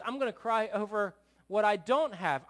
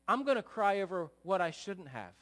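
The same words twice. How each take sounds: First: Louder, petulant declaration; worldly sorrow. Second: Said in the usual way. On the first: Acted. Preacher voicing worldly sorrow to the congregation, loudly petulant. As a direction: start working up to a mock tantrum. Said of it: "the worldly sorrow says". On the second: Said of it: "the godly sorrow says".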